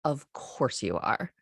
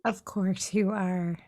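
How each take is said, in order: First: Calm, slow, matter-of-fact. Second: Matter-of-fact. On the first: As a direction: say it flatly, as obvious. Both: Retold or imitated. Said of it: "so matter of fact about it".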